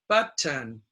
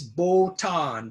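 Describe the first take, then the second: First: The first vowel is a short 'u'. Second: The first vowel sounds like an 'o'. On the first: The speaker calls it right. "It's the short U" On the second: The speaker calls it wrong. "some Japanese uh, pronounce this botan, but it's not botan"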